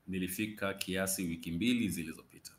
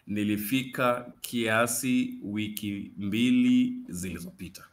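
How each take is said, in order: First: The sentence is spoken at a fast pace. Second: The sentence is spoken at a slow, careful pace.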